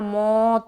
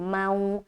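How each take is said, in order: First: The vowel is a single o-like sound. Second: The vowel glides softly from a to u. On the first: The speaker calls it wrong. "कोई पढ़ेगा मौ तेहा, मौ नहीं पढ़ना" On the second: The speaker calls it right. "बल्कि मऊ पढ़ना"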